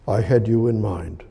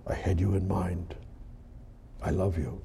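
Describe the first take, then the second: First: Said in the usual way. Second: Whispered, much softer and lower; a soft tender whisper of love; hushed whisper. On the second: Acted. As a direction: breathe it like an intimate secret from God. Voicing God's tender words.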